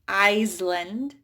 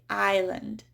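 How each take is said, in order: First: The S sound is pronounced. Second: The S sound is silent. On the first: The speaker calls it wrong. "I don't say Iceland" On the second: The speaker calls it right. "I say island"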